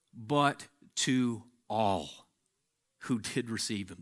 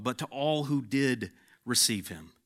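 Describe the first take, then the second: First: "But to all" slowed right down, each word weighed; slow emphatic repeat. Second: Said in the usual way. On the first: Shown as a demonstration. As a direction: savour "But to all who did receive him" word by word. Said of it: "slow repeat of the verse". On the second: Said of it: "repeats the phrase slowly".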